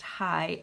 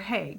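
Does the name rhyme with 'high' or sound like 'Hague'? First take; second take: high; Hague. First: The name sounds like the word high. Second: The name sounds like the city Hague. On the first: The speaker calls it wrong. "It looks like her name would be pronounced High" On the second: The speaker calls it right. "it's pronounced like the city, ... The Hague"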